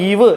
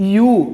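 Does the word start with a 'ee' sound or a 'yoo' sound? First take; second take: ee; yoo. First: It is said like 'eev', ending in v. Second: It is said like 'yoo', with no v. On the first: The speaker calls it wrong. "കാണുമ്പോൾ ഈവ് എന്നൊന്നും വായിക്കരുത്" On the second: The speaker calls it right. "വായിക്കുന്നത് യു"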